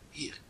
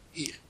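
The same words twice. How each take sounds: First: Hier breathed out as a soft whisper, voiceless. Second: Said in the usual way. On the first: Shown as a demonstration. Teacher contrasting here and there, whispering.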